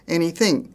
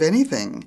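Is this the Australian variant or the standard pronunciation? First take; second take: Australian variant; standard. First: It uses an Australian variant pronunciation. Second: It uses the standard English pronunciation. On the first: The speaker calls it wrong. "Australian expressions not pronounced correctly" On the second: The speaker calls it right. "instead of"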